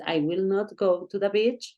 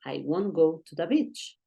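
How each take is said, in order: First: "will not" said as two separate full words; full form will not. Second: "won't" run together as a single contracted syllable. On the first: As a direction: say "I will not go", keeping "will" and "not" apart. ("will not" pronunciado como dos palabras completas) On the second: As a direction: say "I won't go", contracting "will not" to "won't". ("won't" contraído en una sola sílaba) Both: Shown as a demonstration. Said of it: "es lo mismo si tú dices".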